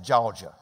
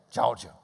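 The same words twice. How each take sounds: First: Georgia said with a hard J, "Jorja". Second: Said in the usual way. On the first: Shown as a demonstration. Georgia native demonstrating the local "Jorja" pronunciation. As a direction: say Georgia starting with a J sound. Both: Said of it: "with a J".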